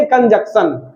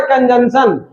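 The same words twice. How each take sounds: First: Said in the usual way. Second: कंजंक्शन said "kan-jan-shan", no k sound; formal pronunciation. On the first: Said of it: "लेकिन हम बोलेंगे". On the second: Shown as a demonstration. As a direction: say कंजंक्शन with a second n replacing the k: "kanjanshan". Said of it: "इसका उच्चारण होता है". (कंजंक्शन का औपचारिक उच्चारण "कन-जन-शन", बिना क के)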